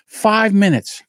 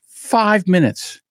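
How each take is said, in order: First: Said in the usual way. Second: "five minutes" stretched slow and heavy; slow emphatic repeat. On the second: Shown as a demonstration. Comedian stressing how fast it was, slow emphasis. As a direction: lean on "five minutes" slowly. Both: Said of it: "repeated for emphasis".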